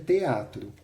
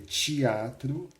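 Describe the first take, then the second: First: It is said in a São Paulo accent. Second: It is said in a Rio de Janeiro accent. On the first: "que um paulistano diga teatro" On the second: "que um carioca diga teatro"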